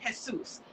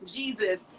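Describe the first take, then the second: First: "Jesus" said the Spanish way, "Hay-soos"; "Jesus" with a Spanish H sound. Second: Said in the usual way. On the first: Retold or imitated. A woman mimics the man's name the Spanish way. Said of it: "I pronounced it Jesus". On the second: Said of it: "about to do a Spanish accent".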